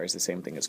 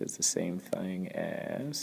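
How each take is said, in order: First: Said in the usual way. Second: Slow Southern drawl. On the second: Real, not acted. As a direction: stretch it out in a Southern accent. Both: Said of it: "sorry for the southern accent there".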